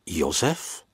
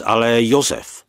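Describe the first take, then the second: First: "Josef" asked with a rising end; questioning echo. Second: "Josef" stated with a falling end; firm statement. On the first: Surprised echo of the name. (tázavé „Josef?“, hlas na konci stoupá) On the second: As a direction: say "Josef" as news, pitched up then falling. Děda reveals who was punished. (oznamovací „Josef“, hlas na konci klesá) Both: A narrator's reading.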